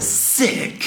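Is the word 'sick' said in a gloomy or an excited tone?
excited. The word sounds lively and excited. Something was great. "you can tell that I mean sick in a different way just by the tone"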